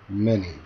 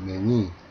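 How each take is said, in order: First: The stress is on the first syllable. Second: The stress is on the second syllable. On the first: The speaker calls it right. "앞에 제가 들려드린 것처럼 앞 음절에 강세가 있어야" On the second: The speaker calls it wrong. "강세를 뒤로 주어서 말을 한다면"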